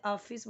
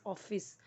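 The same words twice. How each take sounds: First: ऑफिस with an open aa at the start; ऑफिस said Hindi-style, starting "aaf"; wrong pronunciation. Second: ऑफिस with a rounded o; soft model ऑफिस starting "off"; correct pronunciation. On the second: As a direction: say ऑफिस softly as "off-iss". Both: Shown as a demonstration. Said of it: "तो वो wrong हो जाएगा".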